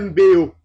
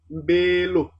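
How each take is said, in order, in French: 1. Les deux voyelles se suivent sans consonne entre elles. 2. Un son L relie les deux voyelles. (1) "ce n'est pas coulant" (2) "On préfère un L ou un N euphonique"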